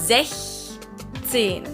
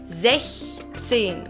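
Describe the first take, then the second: The two takes are said the same way.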